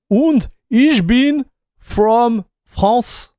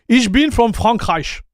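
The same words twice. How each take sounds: First: "Und ich bin from France" said slowly, with a French "France"; first go at the sentence, slow and careful; slow halting German try. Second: "Ich bin from Frankreich" with "Frankreich" said the German way, a bit slow; corrected German try. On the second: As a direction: fix the word to German "Frankreich". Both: Shown as a demonstration. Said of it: "I think this is how you say it".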